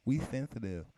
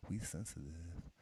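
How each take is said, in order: First: "sensitive" said as "thenthitive", s turned to th; lisp. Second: Said in the usual way. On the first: Shown as a demonstration. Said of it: "I used to lisp when I was young".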